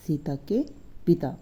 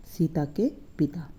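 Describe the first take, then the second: No difference in how they are said.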